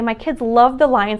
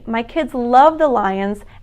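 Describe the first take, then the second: First: The words are spoken very quickly. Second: The words are spoken slowly and clearly. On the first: It is hard for a listener with processing difficulties to follow. The speaker calls it wrong. "That was really fast" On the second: It is easier for a listener with processing difficulties to follow. The speaker calls it right. "So instead, I can simply say"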